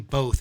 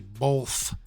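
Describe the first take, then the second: First: It is said in a plain, ordinary way. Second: It is said thickly, from the throat. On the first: This is how the word is normally said. The speaker calls it right. "You don't say both" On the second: This imitates someone else's odd pronunciation. The speaker calls it wrong. "You say both. B O W W L F F"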